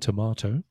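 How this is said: It is said with a British pronunciation. "British people say banana and tomato"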